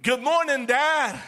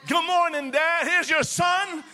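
First: Bright greeting to Father God; cheerful morning greeting. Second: Higher, eager greeting to Dad; joyful greeting. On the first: Son greeting his heavenly Father, cheerful. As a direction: greet Dad gladly. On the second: Son greeting his heavenly Father, joyful and raised. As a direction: lift it with delight. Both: Shown as a demonstration. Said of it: "You got to say".

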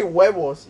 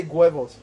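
First: "huevos" starting on a bare W, like "wevos"; huevos with plain w. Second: "huevos" starting with a GW, like "gwevos"; huevos with hard g. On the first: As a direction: say "huevos" as "WEH-vos", no G at the front. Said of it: "you don't say huevos". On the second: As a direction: say "huevos" as "GWEH-vos". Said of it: "You say huevos". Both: Shown as a demonstration.

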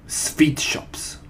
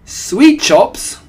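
First: Put-on accented witch reveal, w said as v; understated, portentous answer; Grand High Witch. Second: High, very loud question; startled followers' squeal; astonished echo. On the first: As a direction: announce it with villainous relish. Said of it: "shouted the Grand High Witch". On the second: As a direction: shriek it back in disbelief. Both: A narrator's reading.

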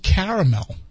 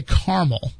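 First: "caramel" in three clear syllables, CARE-uh-mel; caramel as spelled. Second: "caramel" as two-syllable CAR-mul; other people's caramel. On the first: Shown as a demonstration. Host arguing from the spelling, "caramel" as CARE-uh-mel. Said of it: "So it's spelled caramel". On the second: Retold or imitated. Host puzzled by other people, "caramel" as CAR-mul. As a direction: skip the middle vowel of "caramel": CAR-mul. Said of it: "how people can say caramel".

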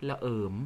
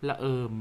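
First: ระเอิม, Korat pronunciation with an r sound; Korat dialect word. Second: ละเอิม with an l sound, Central Thai; ละเอิม, Central Thai pronunciation; Central Thai form. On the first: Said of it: "พูดอีกทีสิคะ". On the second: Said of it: "ถ้าเป็นภาษาไทยกลางจะเป็นละเอิม". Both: Shown as a demonstration.

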